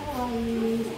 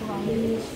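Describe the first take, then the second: First: The vowel is held noticeably longer. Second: The vowel is held for a short time. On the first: "Kalau mau empat ... Agak lebih panjang daripada yang dua harakat tadi" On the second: "Kalau kalian mau baca dua harakat"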